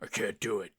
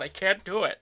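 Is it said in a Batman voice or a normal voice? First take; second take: Batman voice; normal voice. First: It is said in a gruff Batman voice. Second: It is said in the speaker's normal voice.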